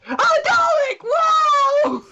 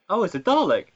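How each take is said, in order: First: It sounds loud and overly excited. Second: It sounds flat and underwhelmed.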